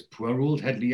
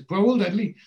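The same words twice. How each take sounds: First: Said in the usual way. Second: Pitched up high, scoffing disbelief; incredulous echo. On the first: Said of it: "Neville says". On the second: Retold or imitated. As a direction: throw the words back, amazed. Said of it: "Dennis says".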